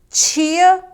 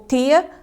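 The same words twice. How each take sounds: First: The first consonant sounds like ch. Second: The first consonant is a plain t. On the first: "o de tch" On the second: "quanto de t"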